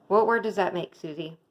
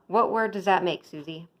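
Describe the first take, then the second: Both takes have the same delivery.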